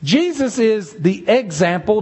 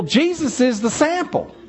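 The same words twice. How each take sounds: First: Said in the usual way. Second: Sample lifted and leaned on; stress on sample. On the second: Shown as a demonstration. Preacher swaps example for sample, stressing sample. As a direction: land hard on the word sample. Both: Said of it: "let me change the word example for sample".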